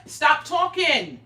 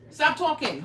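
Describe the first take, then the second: First: "Stop talking." slow and drawn out, louder; slow stern order. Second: Said in the usual way. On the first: Pretend. To the chatty viewers, a slow stern stop talking. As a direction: spell out "Stop talking." word by word.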